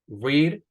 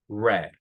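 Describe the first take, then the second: First: The vowel is long, like in 'reed'. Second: The vowel is short, like in 'red'. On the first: The action happens habitually now. "In present we have read" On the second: The action happened in the past. "in past we have red, como el color red"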